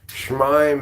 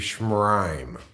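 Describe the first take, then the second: First: There is no r sound after schm. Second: There is an r sound after schm. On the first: The speaker calls it wrong. "Schmime isn't good enough either" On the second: The speaker calls it right. "It has to be Schmrime"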